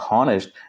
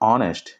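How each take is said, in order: First: The word begins with an h sound. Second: The word begins directly with a vowel. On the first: The speaker calls it wrong. "చాలామంది మిస్ప్రొనౌన్స్ చేస్తున్నారు హానెస్ట్ అని చెప్పి. It's not హానెస్ట్" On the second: The speaker calls it right. "It's ఆనెస్ట్. ఇలా pronounce చేయాలి"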